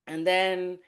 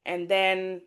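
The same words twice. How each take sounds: The two takes are said the same way.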